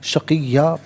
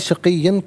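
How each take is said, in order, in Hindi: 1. शब्द का अंत लंबे स्वर से होता है। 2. शब्द का अंत n ध्वनि से होता है। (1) "वफ़ की सूरत में शक़िय्या पढ़ा जाएगा" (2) "इसे शक़िय्यन पढ़ेंगे"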